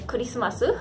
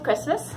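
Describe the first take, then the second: First: It is said with a Japanese accent. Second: It is said with an English accent.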